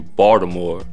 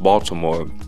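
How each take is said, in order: First: It is said in a local Baltimore accent. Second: It is said in standard American pronunciation. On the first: "Before my speech training, I would say Baltimore" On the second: "the closest way to standard American English"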